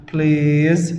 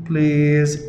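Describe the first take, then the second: No difference in how they are said.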